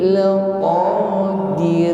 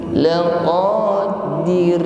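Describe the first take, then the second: Both takes have the same delivery.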